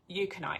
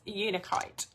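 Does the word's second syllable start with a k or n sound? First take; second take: k; n. First: The second syllable starts with a k sound. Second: The second syllable starts with an n sound. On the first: This is how someone else used to say it. The speaker calls it wrong. "I think she used to say Euconite" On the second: This is the correct name of the crystal. The speaker calls it right. "Anyway, it's Unakite, okay?"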